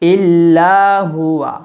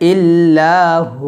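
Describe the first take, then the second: First: The phrase ends with a full 'huwa' sound. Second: The phrase ends with a short 'hu' sound. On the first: The recitation continues without stopping. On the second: The recitation stops at this word.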